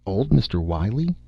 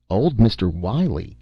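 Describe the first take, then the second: First: Said in the usual way. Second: Stupid echo. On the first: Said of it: "Miss Beaver thought". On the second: A narrator's reading. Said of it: "echoed Doctor Parris stupidly".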